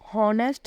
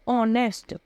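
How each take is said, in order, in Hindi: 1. इस शब्द की शुरुआत h की ध्वनि से होती है। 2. इस शब्द की शुरुआत स्वर से होती है, इसमें h नहीं है। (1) "इसको हॉनेस्ट नहीं बोलेंगे" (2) "यहाँ पे जो हमारा एच है वो साइलेंट है"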